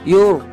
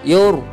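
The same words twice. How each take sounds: No difference in how they are said.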